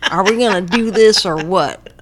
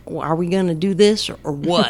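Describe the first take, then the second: First: Louder Texas-tinged Bush line; imitating George Bush. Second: Imitating George Bush. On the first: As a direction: belt it out like Bush gnawing a chicken bone. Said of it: "While he's sucking on a chicken bone". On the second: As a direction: quote Bush in a lightly Texan voice. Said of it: "Sam Rockwell plays George Bush".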